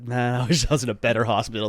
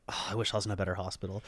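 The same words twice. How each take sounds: First: Laughing. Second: Quiet wistful thought. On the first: Same thought retold, laughing. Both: Retold or imitated.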